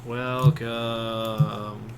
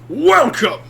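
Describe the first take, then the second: First: It is said flatly, without enthusiasm. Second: It is said with booming enthusiasm.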